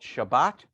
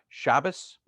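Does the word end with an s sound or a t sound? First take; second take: t sound; s sound. First: The word ends with a t sound. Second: The word ends with an s sound.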